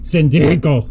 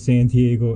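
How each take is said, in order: First: It is said with an exaggerated Spanish accent. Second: It is said with a plain English accent. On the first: The speaker calls it right. "the proper accente" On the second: The speaker calls it wrong. "I didn't say that with the proper accente"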